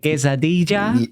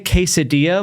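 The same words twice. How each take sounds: First: It is said with a Spanish accent. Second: It is said with an American English accent.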